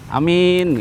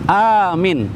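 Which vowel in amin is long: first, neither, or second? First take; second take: second; first. First: The first vowel is short, the second long. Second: The first vowel is long, the second short. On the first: A person who can be trusted. "A-nya pendek, mi-nya panjang" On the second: Asking to be granted tranquility. "A-nya panjang, mi-nya pendek"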